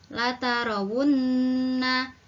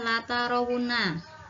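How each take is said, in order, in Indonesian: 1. Huruf n dibaca ganda dengan dengung yang panjang. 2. Huruf n dibaca pendek, tanpa dengung. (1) "dibaca latarawunna" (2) "tidak boleh dibaca latarawunna"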